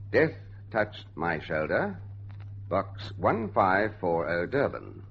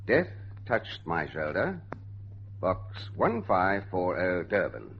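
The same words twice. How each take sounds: The two takes are said the same way.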